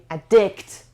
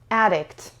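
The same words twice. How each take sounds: First: The stress is on the second syllable. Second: The stress is on the first syllable. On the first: The speaker calls it wrong. "نمیگیم addict" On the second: The speaker calls it right. "Stress روی سیلاب اولش هستش"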